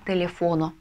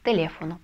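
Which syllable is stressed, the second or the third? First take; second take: third; second. First: The stress is on the third syllable. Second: The stress is on the second syllable. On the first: The speaker calls it wrong. "Если мы не поставим ударение, то у нас получится" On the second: The speaker calls it right. "а нужно"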